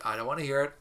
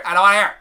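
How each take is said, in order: First: Said in the usual way. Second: High, very loud playful shout; mock yell. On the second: Teacher cutting off imagined student complaints, mock yell.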